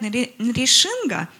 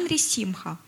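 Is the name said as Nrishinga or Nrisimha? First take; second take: Nrishinga; Nrisimha. First: The name is said as Nrishinga. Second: The name is said as Nrisimha. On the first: This is how it is said everywhere. "Все говорят Нришинга" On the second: This is how it is said in Russia. "а мы Нрисимха"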